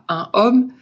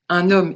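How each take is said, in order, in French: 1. Les deux mots se disent sans liaison en n. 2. Le son n se lie au mot suivant. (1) "et pas un homme" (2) "c'est le fait de dire un homme"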